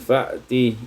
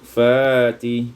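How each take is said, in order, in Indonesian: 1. Hentian glotal mengikuti suku kata pertama. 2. Vokal panjang menggantikan hentian glotal.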